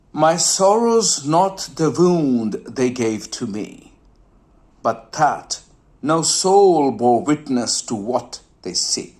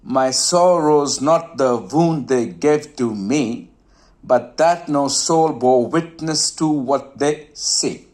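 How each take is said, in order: First: Poem recital. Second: Slow, measured verse reading; poem recital again slower. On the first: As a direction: recite the couplet, letting "see" fade. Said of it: "now listen carefully". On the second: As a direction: let the last word "see" fade away. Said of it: "You can listen to it again". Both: Shown as a demonstration.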